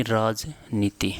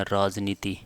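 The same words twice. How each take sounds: First: राजनीति slowly, split as राज, नीति; slow dictation. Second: Said in the usual way. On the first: Shown as a demonstration. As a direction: dictate राजनीति in two measured parts. Teacher dictates term in parts. (धीरे, टुकड़ों में लिखवाते हुए)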